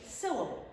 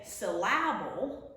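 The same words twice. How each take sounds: First: Syllable said SIL-uh-bul, falling; stress on first syllable. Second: Syllable said suh-LAB-ul, middle syllable stressed; wrong stress. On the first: Teacher showing what we say, first syllable of syllable stressed. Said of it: "We put it at a different spot". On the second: Teacher showing what we don't say, syllable stressed on the middle. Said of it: "we don't say syllable". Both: Shown as a demonstration.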